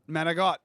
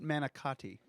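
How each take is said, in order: First: It is said the Italian-American way. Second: It is said the standard American way.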